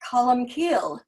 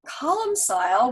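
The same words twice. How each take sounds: First: The name has a native Gaelic pronunciation. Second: The name has an anglicized English pronunciation. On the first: This is the original Gaelic way of saying it. "in Gaelic" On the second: This is the local everyday way of saying it. "which is how most of us pronounce it here"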